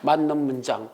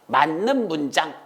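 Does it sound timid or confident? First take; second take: timid; confident. First: It is said in a weak, unsure voice. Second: It is said in a strong, sure voice.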